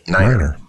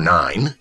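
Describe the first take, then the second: First: It is said as two syllables, niner. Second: It is said as one syllable, nine. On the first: The speaker calls it right. "you say 9er" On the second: The speaker calls it wrong. "you don't say the number 9"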